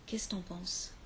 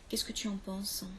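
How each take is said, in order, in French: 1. Le mot tu se réduit à t'. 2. Le mot tu se prononce en entier. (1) "c'est très familier" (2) "Même chose avec tu"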